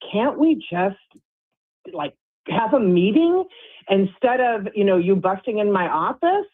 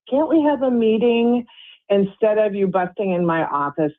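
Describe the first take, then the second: First: It is said in a sarcastic tone. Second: It is said in a calm tone. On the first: The speaker calls it wrong. "whoa, sarcastic" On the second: The speaker calls it right. "if I take a deep breath and I say those exact words"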